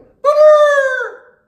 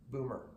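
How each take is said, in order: First: It is said in an excited, loud tone. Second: It is said in a calm conversational tone.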